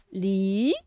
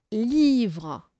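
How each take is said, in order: First: "Livre" split into li... vre, first part drawn out; syllable by syllable. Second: Said in the usual way. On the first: Shown as a demonstration. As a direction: sound out "Livre" as two separate syllables. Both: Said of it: "on sépare les syllabes".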